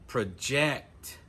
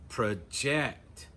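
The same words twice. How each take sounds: First: The stress is on the last syllable. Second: The same.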